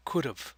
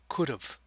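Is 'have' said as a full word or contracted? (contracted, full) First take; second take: contracted; contracted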